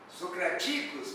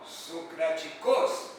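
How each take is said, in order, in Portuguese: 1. A sílaba tônica é a penúltima. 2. A sílaba tônica é a última. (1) "paroxítona" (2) "oxítona"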